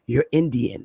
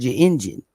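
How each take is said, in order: First: "Indian" said crisply as "In-di-an", every syllable clear; carefully enunciated "Indian", three distinct syllables; European pronunciation. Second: Relaxed Southern "Indian", like the elders said it; Southern accent. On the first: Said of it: "like Europeans say it". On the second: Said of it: "their Southern accents". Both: Shown as a demonstration.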